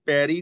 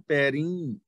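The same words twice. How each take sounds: First: ਪੈਰੀ with a plain oral final ee; wrong reading demo. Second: ਪੈਰੀਂ with a nasalised final ee; correct reading demo. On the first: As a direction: say ਪੈਰੀ with no nasal on the last vowel. (ਪੈਰੀ, ਅਖੀਰ 'ਤੇ ਬਿਨਾਂ ਬਿੰਦੀ ਦੇ) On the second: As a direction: let the end of ਪੈਰੀਂ ring through the nose. (ਪੈਰੀਂ, ਅਖੀਰ 'ਤੇ ਬਿੰਦੀ ਨਾਲ ਨਾਸਕੀ ਉਚਾਰਨ) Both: Shown as a demonstration. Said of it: "ਇਹਨੂੰ ਪੈਰੀ ਨਹੀਂ ਪੜਨਾ".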